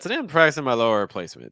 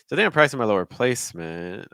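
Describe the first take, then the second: First: The pitch falls straight down at the end. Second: The pitch wavers slightly on the final word. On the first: "it's just a straight falling intonation" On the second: "do you hear that kind of quiver?"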